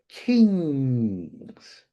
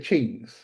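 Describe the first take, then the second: First: The word begins with a 'k' sound. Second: The word begins with a 'ch' sound. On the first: The speaker calls it right. "there's kings" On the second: The speaker calls it wrong. "you can't say the chings"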